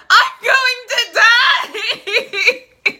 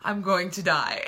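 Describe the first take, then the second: First: High, drawn-out shriek breaking into laughter; mock screaming panic. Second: Said in the usual way. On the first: Retelling the heroine's panic attack to viewers, theatrical scream. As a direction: scream it out, hammed up and very loud. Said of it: "She's basically screaming". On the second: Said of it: "And she's like".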